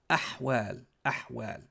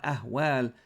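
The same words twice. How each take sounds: First: Ahwal with a throaty pharyngeal ḥ, fading softer; correct pronunciation. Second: Slow ahwal with a light airy h, the wrong way; wrong pronunciation. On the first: Teacher modelling the right ahwal, throaty ḥ. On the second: Teacher warning students off the light-h mistake. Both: Shown as a demonstration. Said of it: "So not ahwal".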